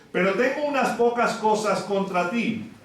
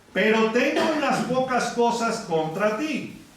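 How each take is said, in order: The two takes are said the same way.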